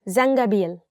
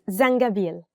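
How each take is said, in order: No difference in how they are said.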